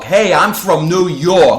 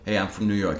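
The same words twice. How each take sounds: First: The New York accent is heavy and exaggerated. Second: The New York accent is light and restrained. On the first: The speaker calls it wrong. "they really lay on the New York" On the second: The speaker calls it right. "if you just pull back a little bit"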